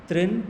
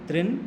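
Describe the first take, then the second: Both takes have the same delivery.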